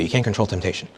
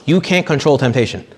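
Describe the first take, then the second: First: "can't" leaned on, soft and low; quiet delivery. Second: "you" stressed, line said plainly. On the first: Priest reading a retreat line softly to his listeners. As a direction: drop the level and press "can't". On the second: Priest repeating the key retreat line to the room. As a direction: lean on "you" and let it fall. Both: Shown as a demonstration. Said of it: "Just take that line".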